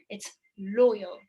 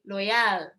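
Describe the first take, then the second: First: The stress is on the first syllable. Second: The stress is on the second syllable. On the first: The speaker calls it right. "بمد الأولانية واخطف الثانية" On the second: The speaker calls it wrong. "they stress on the yeah, not the low"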